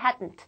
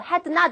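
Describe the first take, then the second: First: It is said as one contracted word. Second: It is said as two full separate words. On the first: The speaker calls it right. "hadn't 줄여서" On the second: The speaker calls it wrong. "had not 이러지 말고"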